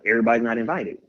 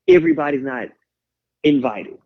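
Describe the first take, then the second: First: Said in the usual way. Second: Everybody's said much higher and punched, then a pause before invited; stress on everybody's. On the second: Real, not acted. Repeated motto, first take.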